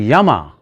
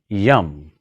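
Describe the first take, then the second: First: The word ends with a final vowel sound. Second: The word ends on a consonant, no vowel. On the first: The speaker calls it wrong. "Instead of yama" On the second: The speaker calls it right. "start saying yam"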